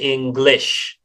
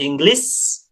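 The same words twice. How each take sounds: First: The word ends with a thick sh sound. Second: The word ends with a thin s sound. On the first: The speaker calls it right. "Shin, tebal, ya, sh" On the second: The speaker calls it wrong. "Itu tidak English"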